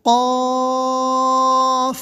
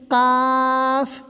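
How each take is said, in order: First: Full heavy قاف; correct heavy qaaf. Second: قاف from the throat but the vowel kept thin, not heavy; قاف drawn out but not made full; wrong thin qaaf. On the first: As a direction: make قاف heavy in the throat and draw it out. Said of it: "اس وجہ سے اس کو بولیں گے". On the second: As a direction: say قاف long but light, without thickening it. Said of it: "یہ بھی غلط ہو جائے گا". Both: Shown as a demonstration.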